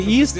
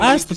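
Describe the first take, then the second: First: The vowel is a long ee sound. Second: The vowel is a short eh sound. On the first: The speaker calls it right. "треба казати «іст»" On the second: The speaker calls it wrong. "я говорю «ест»"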